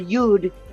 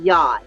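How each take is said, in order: First: The word is given its Hebrew pronunciation. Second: The word is given its astrology pronunciation. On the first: "if you say it in, in uh, Hebrew" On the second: "in astrology, I believe we can now pronounce it as a yod"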